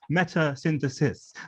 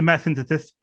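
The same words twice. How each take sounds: First: The s sounds are said clearly. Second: The s sounds are lisped. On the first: The speaker calls it right. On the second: The speaker calls it wrong. "My lisp gets worse in presentations"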